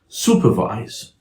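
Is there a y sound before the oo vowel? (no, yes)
no. The oo vowel follows with no y sound. "standard American English speaker would say"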